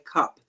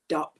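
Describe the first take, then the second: First: The word begins with a k sound. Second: The word begins with a d sound. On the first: The speaker calls it right. "they can't say cup" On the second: The speaker calls it wrong. "they say dup"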